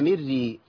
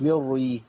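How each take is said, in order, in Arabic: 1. الراءات خفيفة ورقيقة. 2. الراءات ثقيلة ومفخمة. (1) "يبقى نرقق الرأي الاثنين" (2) "ما نفخمش الاولى والثانيه"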